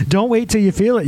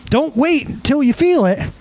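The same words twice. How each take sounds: First: Said in the usual way. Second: "feel" drawn out, high and slow; slow emphatic stress on feel. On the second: Shown as a demonstration. Pastor urging the congregation, slow and emphatic. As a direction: preach "Don't wait till you feel it" slowly, leaning on "feel".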